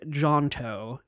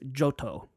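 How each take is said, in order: First: An n sound is heard in the middle. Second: No n sound is heard in the middle. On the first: The speaker calls it wrong. "I thought there was an N in it" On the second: The speaker calls it right. "but it's Johto"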